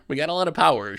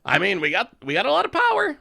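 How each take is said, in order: First: Said in the usual way. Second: Squealed high and loud; gushing over a great hand; excited. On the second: Real, not acted. Excited about strong hand.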